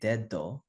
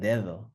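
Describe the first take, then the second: First: The second d is a hard stop. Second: The second d is soft, like English th. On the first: The speaker calls it wrong. "the second one is not really dedo" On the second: The speaker calls it right. "it's like dedo, right? ... that's the English of the sound"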